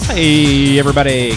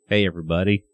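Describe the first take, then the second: First: It is said with big, excited energy. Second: It is said with calm, normal energy.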